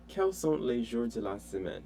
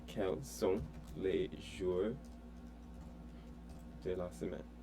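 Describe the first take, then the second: First: Said in the usual way. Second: Slow, soft Quels sont les jours de la semaine, each word apart; teacher slowing the French down for the student; slow model. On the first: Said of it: "teacher models the question". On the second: Shown as a demonstration. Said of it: "slow model repetition".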